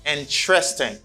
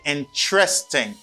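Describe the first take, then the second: First: It is said with three syllables, in-tres-ting. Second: It is said with three syllables, in-tres-ting.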